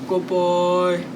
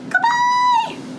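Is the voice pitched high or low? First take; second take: low; high. First: It is said in a very low, deep voice. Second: It is said in a very high, squeaky voice. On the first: "as low as we can" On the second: "as high as we can"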